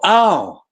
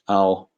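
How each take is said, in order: First: It is said loudly with an expulsive breath. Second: It is said quietly and casually. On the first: It brings some relief. The speaker calls it right. "the expulsive breath, the expulsive sound" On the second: It brings no relief. The speaker calls it wrong. "Blase doesn't work"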